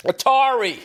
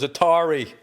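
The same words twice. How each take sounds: First: Mock crowd yell, high and loud. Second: Said in the usual way. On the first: Imitating the arena crowd shouting the answer. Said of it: "everybody in the crowd's yelling". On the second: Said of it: "And then the kid goes".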